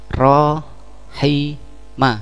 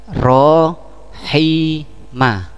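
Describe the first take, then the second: No difference in how they are said.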